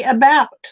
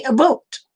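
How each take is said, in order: First: "about" with an open OW, a-BOWT; American about. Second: "a boat" for about, with a long O, a-BOAT; mock Canadian about. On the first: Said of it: "We say about". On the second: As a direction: imitate the Canadian "a boat", like the word boat. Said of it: "They say a boat". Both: Shown as a demonstration.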